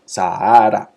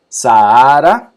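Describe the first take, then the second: First: Said in the usual way. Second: Sahara drawn out slowly and loud, sa-a-ra; stretched demo. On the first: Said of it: "se separan y queda un hiato". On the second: Shown as a demonstration. Teacher showing students the split vowels, slow and loud. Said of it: "dos vocales juntas".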